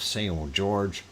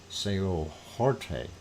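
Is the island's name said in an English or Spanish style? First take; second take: English; Spanish. First: The name is said with English sounds. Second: The name is said with Spanish sounds.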